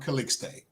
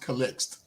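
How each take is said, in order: First: The surname has an Americanized pronunciation. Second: The surname has its original, non-American pronunciation. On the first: This is how people in the United States say it. "because we're in the United States, they call me [name]" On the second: This is the name's own pronunciation. "Actually, it's pronounced Calixt"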